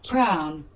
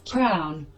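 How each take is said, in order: No difference in how they are said.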